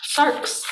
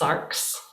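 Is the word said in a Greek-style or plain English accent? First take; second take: Greek-style; plain English. First: It is said with a put-on Greek-style accent. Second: It is said in a plain English accent. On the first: The speaker calls it right. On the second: The speaker calls it wrong.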